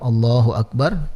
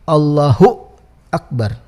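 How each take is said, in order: First: The 'hu' is short with no added stop. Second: The 'hu' ends in an added glottal stop. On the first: The speaker calls it right. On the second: The speaker calls it wrong.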